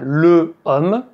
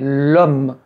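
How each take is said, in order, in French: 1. La voyelle de le est conservée devant homme. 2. La voyelle de le est supprimée devant homme. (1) "je ne dis pas" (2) "mais l'homme, L apostrophe"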